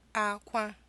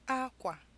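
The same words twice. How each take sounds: First: Both syllables have a high tone. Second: A high tone is followed by a low tone. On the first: It means cry. "two high tones" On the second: It means cloth. "a high tone and a low tone"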